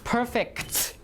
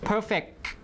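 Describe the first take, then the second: First: The final consonant is released with audible air. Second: The final consonant is held without releasing air. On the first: "instead of saying things like perfect, like that" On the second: "We just unrelease the K"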